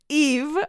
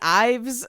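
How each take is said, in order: First: The name begins with an "ee" vowel sound. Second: The name begins with an "eye" vowel sound. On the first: The speaker calls it right. "like Eve Saint Laurent" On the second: The speaker calls it wrong. "I was saying Eve's, Ives"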